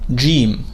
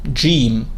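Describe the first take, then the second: First: It begins with a J sound, as in George. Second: The same.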